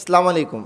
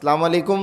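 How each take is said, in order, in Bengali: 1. শুরুর ও সংযোগের স্বরধ্বনিগুলো বাদ দেওয়া হয়। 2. শুরুর ও সংযোগের স্বরধ্বনিগুলো বাদ দেওয়া হয়।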